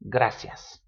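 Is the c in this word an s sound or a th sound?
s. The c is said as an s sound. It is how most other countries say it. "for the other twenty-ish countries"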